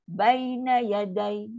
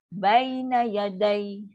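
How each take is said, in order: No difference in how they are said.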